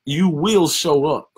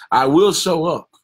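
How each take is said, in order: First: Slow, loud, WILL held high and stretched; emphasis on showing up. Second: Loud, higher, will pushed hard; declaring. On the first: Shown as a demonstration. Preacher stressing the word to his congregation. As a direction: lean hard on "will show up". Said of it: "with emphasis on showing up". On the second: Acted. Preacher voicing a leader, loud declaration. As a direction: declare it to the whole room.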